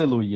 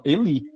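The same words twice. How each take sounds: First: Eloi said as e-LOI, the wrong way; the mistaken hymn version Eloi, said carefully; wrong pronunciation. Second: Eli said as E-li, two clear syllables; the right form Eli, stated firmly; correct pronunciation. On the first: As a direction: say Eloi with the diphthong oi at the end. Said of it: "Tá errado, Eloi". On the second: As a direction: say Eli plainly, ending on a short i. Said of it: "ele fala Eli". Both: Shown as a demonstration.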